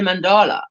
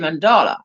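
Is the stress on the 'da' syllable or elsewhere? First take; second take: elsewhere; da syllable. First: The stress does not fall on 'da'. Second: The stress falls on the 'da' syllable. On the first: "I used to say it wrong because we say mandala" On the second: "The emphasis on the D A, Dala"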